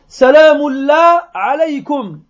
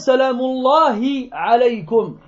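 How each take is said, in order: First: The 'hi' sound after 'Allah' is dropped. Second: The 'hi' sound after 'Allah' is pronounced. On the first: The speaker calls it wrong. "au lieu de dire" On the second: The speaker calls it right. "Elle n'arrivait pas à prononcer le ha"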